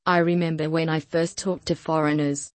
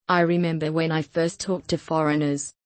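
Both takes have the same delivery.

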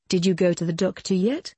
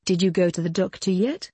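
No difference in how they are said.

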